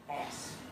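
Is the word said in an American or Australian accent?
American. It is said in a non-Australian, American-like way.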